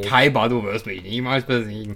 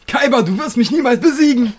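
First: The line is said calmly and coolly. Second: The line is shouted loudly.

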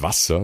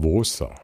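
First: Standard pronunciation with short vowel and crisp consonants. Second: Slow dialect pronunciation with long vowel, soft consonants. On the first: "Die sagen nicht Wasser" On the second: "die sagen Wasser"

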